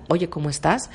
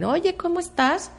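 First: Said in the usual way. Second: Casual greeting. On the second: Retold or imitated. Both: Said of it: "es una forma de saludar".

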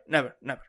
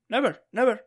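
First: Final "never, never" sinking as a full stop; falling never. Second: "Never, never" pitched high with a rising lift; teacher insisting, "Never, never" rising sharply; emphatic never. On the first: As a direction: settle "never, never" down to a firm close. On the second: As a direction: stress the first "Never" up high, then repeat it. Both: Shown as a demonstration. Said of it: "never in Spanish has accent".

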